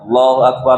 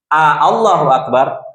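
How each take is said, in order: First: The first vowel is said short. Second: The first vowel is drawn out long. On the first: It states that God is the greatest. The speaker calls it right. "harus pas" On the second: It asks whether God is the greatest. The speaker calls it wrong. "Kalau A-nya dipanjangin, Allah, maknanya menjadi apakah Allah Maha Besar?"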